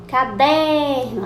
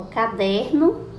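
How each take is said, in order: First: DER in "caderno" stretched long and loud; slow "caderno" with a loud, drawn-out DER; stressed syllable. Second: Said in the usual way. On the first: Shown as a demonstration. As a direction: call out "caderno", holding DER. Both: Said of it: "A sílaba tônica foi o".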